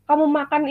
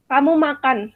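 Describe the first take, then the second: First: "kamu makan" as a mild command; lightly ordering with "kamu makan"; imperative intonation. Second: "Kamu makan" as an even declarative; flat statement intonation. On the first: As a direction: tell someone to eat, "makan" as an order. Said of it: "penanda kalimat imperatif". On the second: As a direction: let "makan" settle, as in a statement. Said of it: "menggunakan intonasi datar". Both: Shown as a demonstration.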